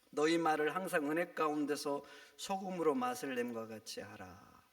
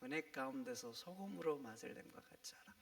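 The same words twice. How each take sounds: First: Said in the usual way. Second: 은혜 가운데서 소금으로 맛을 냄과 같이 하라 whispered softly; whispered verse. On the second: Shown as a demonstration. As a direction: repeat the verse in a hushed whisper. (속삭이듯 다시 읽는 말씀)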